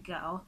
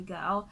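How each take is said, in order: First: It is said in a British accent. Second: It is said in a Nigerian accent. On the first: "someone from the U K, you say girl" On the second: "in Nigeria we say"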